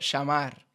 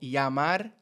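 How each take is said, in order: First: The ll is said as a sh sound. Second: The ll is not said as a sh sound. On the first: This is how people in Argentina say it. "dicen sh" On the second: This is how most speakers say it. "en vez de decir llamar"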